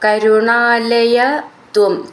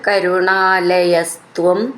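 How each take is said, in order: First: The words are said without the linking s. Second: The words are joined with a linking s.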